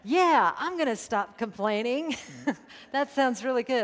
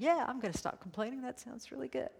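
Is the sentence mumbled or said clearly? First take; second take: clearly; mumbled. First: It is said clearly and audibly. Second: It is mumbled quietly and indistinctly. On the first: "I said" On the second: "I always mumble when I say something that I don't think anybody wants to hear"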